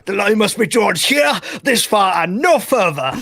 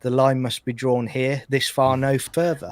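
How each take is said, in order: First: The line is declaimed passionately, like Picard. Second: The line is quoted flatly, without much passion.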